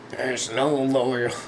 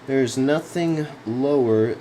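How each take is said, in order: First: It is said in a put-on character voice. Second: It is said in the speaker's normal voice.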